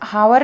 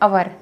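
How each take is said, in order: First: The word begins with an h sound. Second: The word begins with a vowel sound. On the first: The speaker calls it wrong. "यहाँ पर हावर नहीं पढ़ेंगे" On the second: The speaker calls it right. "ये है अवर"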